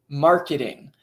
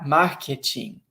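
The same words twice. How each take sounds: First: It is said with an American English accent. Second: It is said with a Brazilian Portuguese accent.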